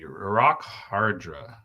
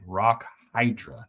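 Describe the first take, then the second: First: The first vowel of Hydra sounds like 'ar'. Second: The first vowel of Hydra sounds like 'eye'. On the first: The speaker calls it wrong. "Why did I say it that way?" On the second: The speaker calls it right. "Rock Hydra, not Hardra"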